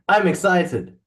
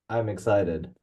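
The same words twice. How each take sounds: First: It is said in an excited, lively tone. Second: It is said in a bored, flat tone.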